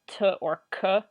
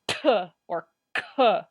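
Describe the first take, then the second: First: The consonants are released with ordinary force. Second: The consonants are released with a forceful, popping burst. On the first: "if you say like" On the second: "you can be like t or k. Actually, is that ejective?"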